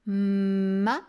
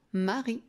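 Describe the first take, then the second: First: "mari" as long hummed "mmma", pause, "ri"; "mari" decoded syllable by syllable, louder; sounded out. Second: Said in the usual way. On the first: Shown as a demonstration. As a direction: split "mari" into two slow syllables, first M held. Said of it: "je peux la faire chanter longtemps".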